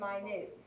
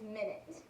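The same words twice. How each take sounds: First: It is pronounced as the word meaning very small. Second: It is pronounced as the word for sixty seconds. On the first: It means very small. "if it's talking about being very small, we pronounce it as minute" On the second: It refers to a unit of time. "if it's talking about time, we pronounce this as minute"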